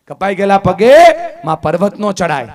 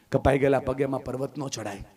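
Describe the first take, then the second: First: Much louder, higher repeat with a ringing rise on પગે; loud proclamation. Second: Said in the usual way. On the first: Acted. Speaker hammering home the daughter's despair, loud. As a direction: throw કપાઈ ગયેલા પગે out to the hall, then land નો hard.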